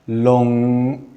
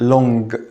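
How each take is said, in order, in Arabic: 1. تنتهي الكلمة بصوت ng ممتد وله رنين. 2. تنتهي الكلمة بصوت g قوي وواضح. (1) "النطق الصح بتاعها long" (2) "ما نقولش long"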